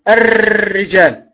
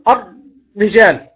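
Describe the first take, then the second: First: The r is trilled heavily with several taps. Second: The r is held stiff with no trill. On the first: "هذه هي الراء المكررة، وهذا من الخطأ" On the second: "الرجال خطأ ... ما خرجت راء أصلا"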